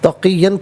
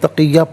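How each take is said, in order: First: The word ends with a final n sound. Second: The word ends on a long vowel, no n. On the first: The reading continues into the next word. "तक़ियन पढ़ेंगे" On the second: The reader stops after this word. "वक़्फ़ की सूरत में तक़िया पढ़ा जाएगा"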